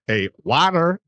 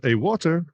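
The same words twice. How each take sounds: First: "water" as "WAH-der", drawn out and high; high, mock-American "water" with a flapped t; Americanised water. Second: "water" in posh English, pitched higher; posh English accent. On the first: Repeats order so American understands. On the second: Retold or imitated. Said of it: "like, posh English accent".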